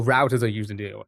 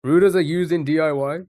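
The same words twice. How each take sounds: First: Routers said "rowters", quicker. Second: Routers said "rooters", higher and louder. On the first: Streamer correcting to the tool's name, routers as "rowters". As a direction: say routers to rhyme with "doubters". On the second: Streamer testing the word on chat, Routers as "rooters". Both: Shown as a demonstration. Contrasts two readings of router.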